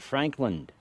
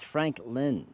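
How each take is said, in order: First: The name ends with an added d sound. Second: The name ends without a d sound. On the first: The speaker calls it wrong. "I call it Frankland" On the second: The speaker calls it right. "it's Franklin"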